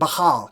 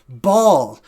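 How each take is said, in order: First: It is said with a guttural throat sound. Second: It is said without a guttural throat sound. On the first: This is the older way of saying the name. "It's sort of a guttural sound" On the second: This is how the name is said today. "today we pr- pronounce it Baal"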